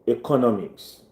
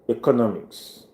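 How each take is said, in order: First: The first vowel sounds like the letter A. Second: The same.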